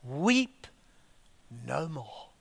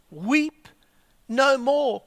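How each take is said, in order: First: Soft, falling away to almost nothing; hushed reading. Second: Said in the usual way. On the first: Shown as a demonstration. Reading the elder's words to the church, very softly. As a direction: let the words fade out gently. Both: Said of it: "look at these words".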